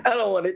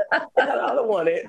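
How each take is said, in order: First: Said in the usual way. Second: Laughing. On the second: Real, not acted. Turning down God's gift to the host, laughing. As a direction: laugh while you refuse it.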